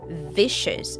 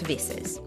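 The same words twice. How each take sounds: First: The middle consonant is a clear sh sound. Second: The middle consonant is an s sound. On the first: The speaker calls it right. "with a clear sh sound" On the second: The speaker calls it wrong. "not vicious"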